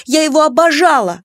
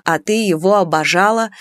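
First: High, loud, passionate cry; stamping protest. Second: Restrained mocking echo, voice near usual; dry scoff. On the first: Daughter defending her adored father, passionate shout. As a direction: shout it in furious defiance. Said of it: "топнула ногой Клара". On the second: Mother echoing her daughter's words, restrained scoff. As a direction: throw the word back with mild irony. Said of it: "усмехнулась Нюраня". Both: A narrator's reading.

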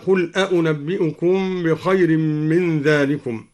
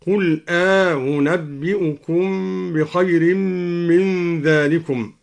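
First: Said in the usual way. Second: أنبئكم opened with a long "aa", then a softened hamza, "aa-unabbi'ukum"; slow recitation, long alif between the two hamzas of أنبئكم; softened second hamza. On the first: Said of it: "قرأ الدوري بتسهيل الهمزة الثانية". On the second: Shown as a demonstration. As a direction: glide over the second hamza in أنبئكم after a drawn-out "aa". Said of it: "بتسهيل الهمزة الثانية مع إدخال ألف".

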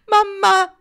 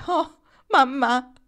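First: Mamma! screamed much higher and louder; heartrending scream. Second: Slow, higher anguished cry of Oh, mamma; heartrending voice. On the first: Barraco collapsing at her mother's name, piercing anguished scream. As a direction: let mamma! break into a desperate cry. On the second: Barraco remembering her mother's suicide, slow anguished lament. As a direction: stretch Oh, mamma out as grief breaks through. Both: Acted. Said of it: "disse con voce straziante".

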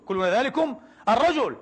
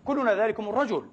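First: كلنا ذلكم الرجل repeated with الرجل stressed and falling; emphatic repeat. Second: Said in the usual way. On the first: Real, not acted. Preacher repeating to the congregation, stressing الرجل. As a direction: lean harder on الرجل the second time.

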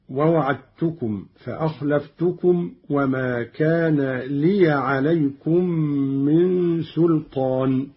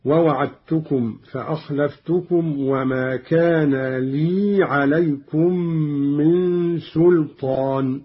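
First: لي recited as liya with open ya; لي with fatha on the ya, liya; open ya reading. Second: لي recited as lī with silent ya; لي without vowel on ya, lī; Qalun silent ya. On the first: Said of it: "قرأ قالون بإسكان الياء من لي". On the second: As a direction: say لي as a long lī. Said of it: "بإسكان الياء من لي عليكم هكذا". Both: Shown as a demonstration.

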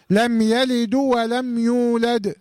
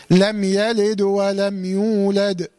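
First: Slow chant with "يلد" voweled as "yalidu"; wrong damma. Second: Slow chant, "يلد" closed on a bouncing vowelless dal; dal with qalqala. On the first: Teacher warning what not to say, chanting "يلد" with a damma on the dal. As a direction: add an u after the dal of "يلد", gliding into "ولم". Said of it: "ما ينفعش أضمها وأقول". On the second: Teacher modelling the rule, chanting "يلد" with still, bounced dal. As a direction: stop the dal of "يلد" and "يولد" with a small echoing release. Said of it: "لازم أقلقل الدال". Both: Shown as a demonstration.

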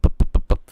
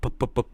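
First: Loud unvoiced puffs of breath, popping p's; blown plosives. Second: Plosive pops. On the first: Showing viewers how breath pops hit a mic without a filter, loud breathy puffs. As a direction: blast breathy pup pup pup straight into the mic. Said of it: "hay bị thổi pup". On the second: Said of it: "nó có nhiều âm kiểu pup". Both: Shown as a demonstration.

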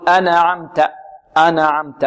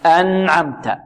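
First: ن in أنعمت given a vowel, "ana-amta"; bounced n. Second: ن in أنعمت closed, "an-amta"; still n. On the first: Teacher imitates how some recite it, bounced n. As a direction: add a little vowel after the n of أنعمت. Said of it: "البعض يقول". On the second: Teacher gives the correct recitation after the mistake, still n. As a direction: keep the n of أنعمت vowelless and clean. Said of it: "لا". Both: Shown as a demonstration.

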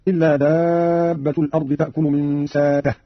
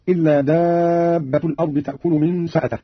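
First: ساته with a long "aa", no glottal stop; hamza turned long vowel. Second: Said in the usual way. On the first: Shown as a demonstration. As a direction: slowly, stretch the alif of ساته instead of a hamza. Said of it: "بإبدال الهمزة حرف مد هكذا". (ساته بإبدال الهمزة حرف مد) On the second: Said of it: "قرأ قالون بإبدال الهمزة".

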